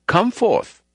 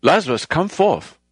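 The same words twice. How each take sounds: First: Much higher, full mock shout; hammed-up commanding shout. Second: Higher, commanding call to the dead; a hint of a booming preacher; mild loud call. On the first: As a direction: belt it out as if waking the dead. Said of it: "shouted out". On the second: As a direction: call Lazarus out, raised but held back. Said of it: "spoke with a loud voice".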